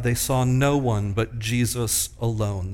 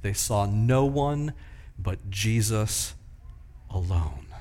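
First: Said in the usual way. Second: Slow, with pauses before "but Jesus" and before "alone"; emphatic, slow. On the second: Shown as a demonstration. Preacher driving home the text's emphasis to the congregation, slow and deliberate. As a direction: lean on "no one", pause, then drop down low for "alone". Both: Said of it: "This is very emphatic in the text".

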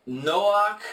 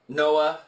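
First: "Noach" drawn out with a hard k ending; "Noach" as an attempted Hebrew name, ending in k; attempted Hebrew pronunciation. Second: "Noah" as NO-uh, open vowel ending; English pronunciation. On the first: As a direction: say "Noach" slowly as NO-ahk, higher pitched. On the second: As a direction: say "Noah" the English way, with no final consonant. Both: Shown as a demonstration. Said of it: "I'm mispronouncing these".

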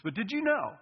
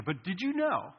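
First: Know lifted high with a falling tune; stressed did you know. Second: Said in the usual way. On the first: Shown as a demonstration. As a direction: lean on know and drop it at the end. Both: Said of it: "you, you don't know this".

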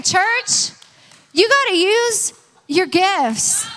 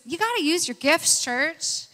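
First: Loud, high, drawn-out call to the church; emphatic repeat. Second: Said in the usual way. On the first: Real, not acted. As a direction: say it louder and slower, rallying the congregation. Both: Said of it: "And say that again".

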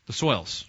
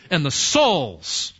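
First: Said in the usual way. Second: Drawn-out attempt at a Southern "souls"; badly faked Southern twang, slowly stretching "souls"; failed Southern accent. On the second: Shown as a demonstration. Preacher naming the parable, failed Southern accent on "souls". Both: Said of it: "trying to do my southern accent there and failed".

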